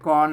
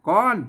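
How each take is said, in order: First: The syllable is said on a level mid tone. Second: The syllable is said with a high tone. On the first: "เสียงสามัญเนี่ยก้อน" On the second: "ก้อนเสียงตีไหม"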